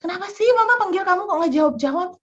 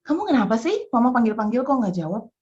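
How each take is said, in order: First: Put-on mother scolding child for not answering. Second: Calmer, near-normal pitch questioning; restrained questioning. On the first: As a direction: fire off an annoyed rebuke. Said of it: "saya mulai ngomel nih ya". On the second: Retold or imitated. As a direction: ask firmly but held back. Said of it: "saya udah siap-siap mau ngomel".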